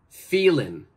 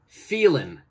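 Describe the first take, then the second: First: The final g sound is left off. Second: The final g sound is left off.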